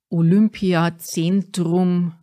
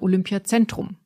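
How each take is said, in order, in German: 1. Die Vokale werden auf bayerische Art breit gezogen. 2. Die Vokale werden in Hochdeutsch gesprochen. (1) "Wir Bayern ziehen gerne die Vokale in die Breite" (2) "Richtig wäre"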